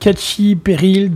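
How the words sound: The name is pronounced the French way.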